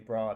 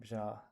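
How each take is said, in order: First: It has a plain English-accented b sound. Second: It has a native Irish y-glide after b. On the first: "I say bra" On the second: "they say bja"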